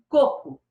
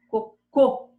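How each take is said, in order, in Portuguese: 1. A tônica está na primeira sílaba. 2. A tônica está na última sílaba. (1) "Coco é uma palavra paroxítona" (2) "Cocô é uma palavra oxítona"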